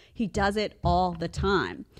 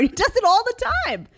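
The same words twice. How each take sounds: First: Measured, drawn-out statement in usual pitch; slow deliberate repeat. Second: High, loud exclamation; exasperated outburst. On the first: Mom repeats complaint to viewers, slow and settled. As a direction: bring it down and say it slowly. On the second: Mom complains about her kid's trick, high loud exasperation. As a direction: cry it out, pitched way up. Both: Real, not acted.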